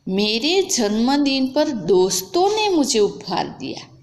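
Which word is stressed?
दोस्तों ने. The stress is on 'doston ne'.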